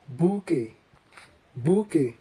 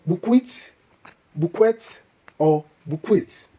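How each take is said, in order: First: "bouquet" as boo-kay, silent t; correct bouquet. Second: "bukwit, bukwet" with a kw and sounded t; mispronounced bouquet. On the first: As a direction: say "bouquet" with plain k, ending in ay. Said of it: "accurately pronounced as". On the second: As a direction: say "bukwit" as a wrong bouquet, t audible. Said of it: "the word here is pronounced not as". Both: Shown as a demonstration.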